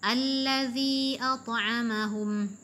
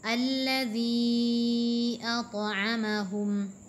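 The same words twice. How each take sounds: First: The long vowel is held for two counts. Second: The long vowel is held for four counts. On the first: "dua harakat itu" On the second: "di sini kita membacanya empat harakat"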